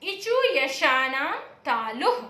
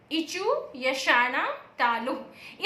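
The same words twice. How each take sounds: First: Slow sutra chant; slow recitation. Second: Slower sutra chant; slower recitation. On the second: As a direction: repeat इचु यशानाम तालुः very slowly, drawn out. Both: Shown as a demonstration. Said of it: "इसके लिए सूत्र है".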